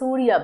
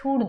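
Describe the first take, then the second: First: The word ends with an added 'a' vowel. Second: The word ends without an added 'a' vowel. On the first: The speaker calls it wrong. "আমরা সূর্যা বলি না" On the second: The speaker calls it right. "আমরা সূর্য বলি"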